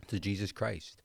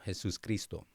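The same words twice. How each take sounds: First: Said in the usual way. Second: "Jesus Cristo" in Spanish, the J like an h; Spanish pronunciation. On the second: Shown as a demonstration. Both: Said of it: "or for the Spanish speakers watching".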